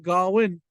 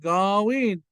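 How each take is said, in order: First: The second vowel is short. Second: The second vowel is long. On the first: The speaker calls it wrong. "Don't say Gawin" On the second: The speaker calls it right. "say Gawin"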